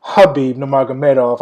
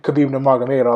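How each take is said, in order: First: "Khabib" corrected to open on a breathy H; corrected name pronunciation. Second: "Khabib" starting on a hard K sound; "Khabib" opened with a clear K; name with hard K. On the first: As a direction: say "Khabib" as huh-BEEB, with H for Kh. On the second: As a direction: say "Khabib" as kuh-BEEV, with a hard K. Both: Real, not acted. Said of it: "excuse me".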